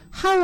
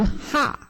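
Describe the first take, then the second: First: Said in the usual way. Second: 하 as one open vowel, no 우; single sound. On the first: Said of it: "하우 아니고 하". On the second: Shown as a demonstration. Teacher corrects 하우, one sound 하. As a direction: say 하 short without the w glide. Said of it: "하우 소리가 아니라 하예요".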